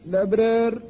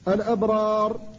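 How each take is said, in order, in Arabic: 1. الراء الأخيرة مرقّقة، والفتحة قبلها تميل نحو الكسر. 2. الراء الأخيرة مفخّمة، وقبلها فتحة واضحة. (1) "وإذا أميلت الألف فلا يمكن إلا الترقيق" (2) "فتقف عليها بالتفخيم إذا كانت الألف التي قبلها غير ممالة"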